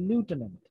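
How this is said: The word begins with a 'loo' sound.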